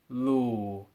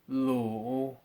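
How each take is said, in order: First: The pitch falls and stays low. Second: The pitch falls, then rises again. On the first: "I'll say each one as a fourth tone" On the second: "and then I'll say it as a double fourth tone"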